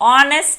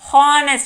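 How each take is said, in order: First: The word starts with a vowel, no h sound. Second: The word starts with an audible h sound. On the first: The speaker calls it right. "దీన్ని ఆనెస్ట్ అంటాం" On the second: The speaker calls it wrong. "హెచ్ ఉంది కదా అని హానెస్ట్ అనం"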